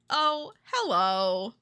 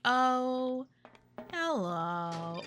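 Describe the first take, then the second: First: The phrase is said at a quicker pace. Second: The phrase is said at a much slower pace. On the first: "they don't say it like that most of the time" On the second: "Like, much slower"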